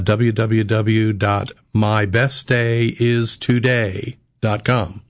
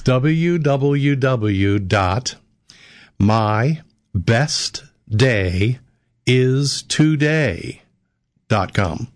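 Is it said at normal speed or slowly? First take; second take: normal speed; slowly. First: It is said at a normal speed. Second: It is said slowly and deliberately.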